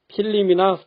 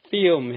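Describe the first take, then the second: First: An extra vowel separates the L and M sounds. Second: The L sound is dropped, no extra vowel added. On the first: The speaker calls it wrong. "보통은 우리가 필름이나 필름이라고 발음합니다" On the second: The speaker calls it right. "자음 L 소리 생략해서 film 해보시기 바랍니다"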